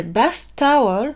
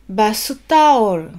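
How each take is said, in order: First: "bath towel" said the English way, without added vowels; plain English "bath towel"; English pronunciation. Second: "bath towel" as ba-su ta-o-ru, with extra vowels; Japanese katakana pronunciation. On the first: Teacher giving the English word before the Japanese one. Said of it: "en anglais bath towel". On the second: Teacher contrasting English and Japanese towel. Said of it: "partir de la prononciation anglaise". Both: Shown as a demonstration.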